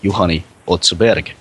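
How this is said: The name is said with a Finnish accent. This is how a native speaker would say it. The speaker calls it right. "a Finnish person would pronounce the name"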